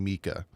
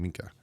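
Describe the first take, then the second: First: "Mika" as MEE-kah, without any N. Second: "Minka" said softly with a faint N before the K; his own Minka. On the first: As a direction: drop the N entirely in "Mika". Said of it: "I'm not saying Mika". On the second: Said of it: "I'm saying Minka". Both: Shown as a demonstration.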